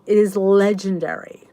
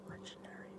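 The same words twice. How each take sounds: First: Said in the usual way. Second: Breathy reverent whisper of Legendary; hushed awe on Legendary. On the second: Shown as a demonstration. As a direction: whisper Legendary like a sacred secret. Repeats the word, then whispers it.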